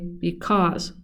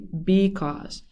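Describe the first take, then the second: First: The stress is on the second syllable. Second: The stress is on the first syllable. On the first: The speaker calls it right. "the B part of the word is unstressed and the cause part is stressed. We say because" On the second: The speaker calls it wrong. "We don't say because"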